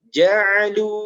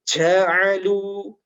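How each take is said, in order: First: The j is said without a strong breath. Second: The j is said with a strong breath. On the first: The speaker calls it right. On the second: The speaker calls it wrong. "menjadi salah ketika dibunyikan"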